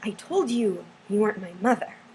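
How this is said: A long pause follows 'I told you', then pitch rises. "there's this big pause between I told you and I go up"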